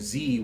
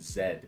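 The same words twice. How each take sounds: First: The letter is pronounced zee. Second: The letter is pronounced zed. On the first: The speaker calls it right. "which rhymes with V" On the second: The speaker calls it wrong. "we have to say"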